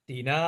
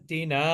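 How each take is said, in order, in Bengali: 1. স্বরটি হ্রস্ব ও দ্রুত উচ্চারিত হয়। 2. স্বরটি হ্রস্ব ও দ্রুত উচ্চারিত হয়।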